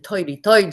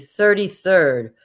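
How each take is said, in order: First: It is said casually, without careful enunciation. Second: It is said with careful, dramatic enunciation. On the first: The speaker calls it wrong. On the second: The speaker calls it right.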